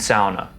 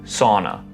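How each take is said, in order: First: It is pronounced the Finnish way. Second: It is pronounced the usual English way. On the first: It honours the word's Finnish roots. "I am saying sauna ... pronounce it the Finnish way" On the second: It is the form most listeners already know. "or as you may know it"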